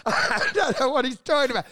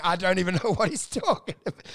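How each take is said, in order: First: Laughing. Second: Said in the usual way. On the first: Real, not acted. Comic laughing at his own story, real laughter. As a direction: repeat it while cracking up. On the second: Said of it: "peters off into".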